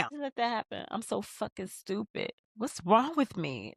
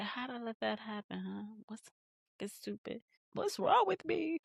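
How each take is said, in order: First: Mildly higher, mock upset voicing of Issa; a light take on a guilty woman blaming herself; upset self-blame. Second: Much softer, muttered to herself; hushed, guilty rehash of the same line; quiet self-blame. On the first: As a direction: play it like she's kicking herself. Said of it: "That's what Issa said". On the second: Retold or imitated. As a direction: say it under your breath in guilt. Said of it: "She's like".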